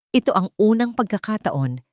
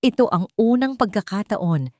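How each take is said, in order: Both takes have the same delivery.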